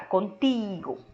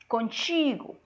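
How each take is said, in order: First: The t stays a plain t before i. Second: The t sounds like ch before i. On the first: This is how Spanish speakers say it. "A gente fala contigo" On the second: This is how Brazilian Portuguese speakers say it. "Vocês que falam ti"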